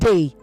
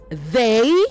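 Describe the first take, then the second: First: It begins without the tongue between the teeth. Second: It begins with the tongue between the teeth. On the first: The speaker calls it wrong. "not they" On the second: The speaker calls it right. "it is they, You press your tongue between your upper front teeth and your lower front teeth"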